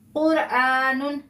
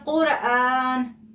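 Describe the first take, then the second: First: The word ends with a full -un sound. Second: The word ends on a bare n sound. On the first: The reader continues on without stopping. "आखिरी हर्फ पर दो पेश हैं" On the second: The reader stops on this word. "नून को साकिन कर दिया"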